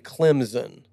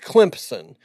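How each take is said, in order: First: No p sound is said before the s. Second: A p sound is said before the s. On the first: The speaker calls it wrong. "Which is absolutely not right" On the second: The speaker calls it right. "it's not in the spelling, but you say the P"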